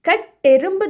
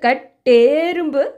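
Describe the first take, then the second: First: The e vowel is short. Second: The e vowel is long. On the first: The speaker calls it right. "கட்டெரும்பு தானோ" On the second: The speaker calls it wrong. "கிடையாது"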